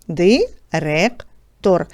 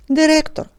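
First: Very slow, spelling out Директор syllable by syllable; teacher drawing out Директор slowly for sound analysis. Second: Said in the usual way. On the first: Shown as a demonstration. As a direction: stretch Директор out slowly, each sound clear for the class. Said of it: "Виконаємо звукобуквений аналіз цього слова". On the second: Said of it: "І це слово".

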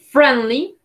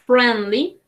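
No difference in how they are said.

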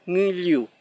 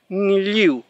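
First: Said in the usual way. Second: Ngliu with a back nasal ng onset; clear ng. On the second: Shown as a demonstration. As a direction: say Ngliu to show ng. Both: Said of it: "Esa sería la forma de pronunciar este sonido".

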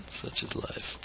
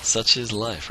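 First: Soft whispered aside. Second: Said in the usual way. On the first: Real, not acted. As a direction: whisper it to yourself. Whispered repeat of same words.

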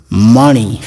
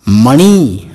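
First: मणि with a light, short final ि; short final vowel. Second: मणि with its last vowel stretched to ी; long final vowel. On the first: Teacher reading the word for gem, मणि ending short. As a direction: keep the end of मणि unstressed. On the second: Teacher reading the word for snake, मणि with long ending. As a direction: stress and lengthen the end of मणि. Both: Shown as a demonstration. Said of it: "उसका वाचन मैं आपको".

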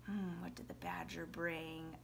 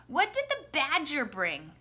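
First: Very soft, low musing; quiet, low thinking-aloud question; pretend pondering. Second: Said in the usual way. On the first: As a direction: mull it over under your voice. Muses over the question, waiting.

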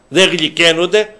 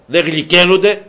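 No difference in how they are said.

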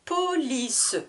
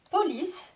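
First: "Police" high and stretched, Po-li-ce; split into syllables. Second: Said in the usual way. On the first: Shown as a demonstration. Teacher counting three syllables, "Police" drawn out. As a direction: sound the final e of "Police" as a third beat. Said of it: "Trois syllabes". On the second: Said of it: "je vous répète le vocabulaire de chaque mot".

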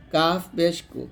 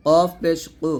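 First: Light K in কাফ and কু; thin kaf. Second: Heavy, back-of-throat Q in কফ and কু; thick qof. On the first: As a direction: say কু thinly, without the heavy qof. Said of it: "আর কাফটা পাতলা হবে এরকম". (কাফ পাতলা উচ্চারণে) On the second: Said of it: "অবশ্যই মোটা করতে হবে". (কফ মোটা উচ্চারণে) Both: Shown as a demonstration.

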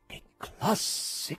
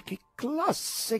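First: Breathless unvoiced near-whisper of delight; rapt hush. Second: Higher, delighted exclamation; rapt cry. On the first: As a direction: gasp it out, awed. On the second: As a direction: cry out in wonder. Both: A narrator's reading. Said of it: "gridavano rapiti".

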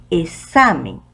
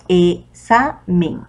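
First: Said in the usual way. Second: Slow "examen" as e-XA-men, pauses between; split, second syllable stressed. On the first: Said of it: "Tenemos otra palabrita". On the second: Shown as a demonstration. Teacher separating "examen" correctly, syllable by syllable, stress on XA. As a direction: break "examen" into three beats, stressing XA. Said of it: "la forma correcta de separar".

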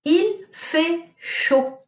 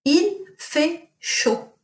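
First: Il fait chaud very slow and higher; teacher quizzing class with Il fait chaud; slow model sentence. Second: Il fait chaud repeated very slowly and higher; teacher repeating Il fait chaud for pupils. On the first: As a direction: stretch Il fait chaud out word by word. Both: Shown as a demonstration. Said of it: "what does it mean if I say".

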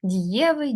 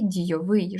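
First: ДІЄвий, stressed on Є in the middle; stem stress. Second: ДійовИЙ, stressed on the last syllable; stress on ending. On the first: Teacher contrasting paired words, Дієвий stressed on Є. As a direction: say Дієвий with the weight on Є. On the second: Teacher contrasting paired words, дійовий stressed on its ending. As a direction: say дійовий landing on -ВИЙ. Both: Shown as a demonstration. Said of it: "різні наголоси".

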